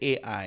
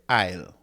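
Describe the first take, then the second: First: The two vowels are said as separate sounds. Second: The two vowels merge into one gliding sound. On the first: The speaker calls it wrong. "you don't say A I" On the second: The speaker calls it right. "you just say isle"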